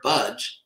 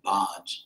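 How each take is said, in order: First: It sounds like the English word budge. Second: It does not sound like English budge. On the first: The speaker calls it right. "as in the English word, I won't budge, that's actually how it's pronounced" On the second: The speaker calls it wrong. "Devotees tend to pronounce it bhaj"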